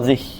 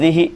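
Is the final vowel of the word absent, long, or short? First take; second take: absent; short. First: The word ends without any final vowel. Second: The final vowel is a short i. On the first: "bil iskan, dengan sukun" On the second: "bil kasr, dengan mengkasrah"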